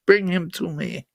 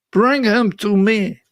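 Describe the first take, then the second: First: Soft, low attempt at a Russian accent as Putin; a failed Russian accent, hushed and menacing; mock Russian accent. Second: Said in the usual way. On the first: Host mimicking Putin's demand in a bad Russian accent. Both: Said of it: "That's not a Russian accent".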